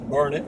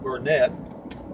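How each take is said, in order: First: The word sounds like 'burn it', ending in 'it'. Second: The word is read as spelled, ending in 'net'. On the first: This is how the locals say it. The speaker calls it right. "they pronounce it Burnet" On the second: This is how the spelling looks. The speaker calls it wrong. "it's spelled B U R N E T"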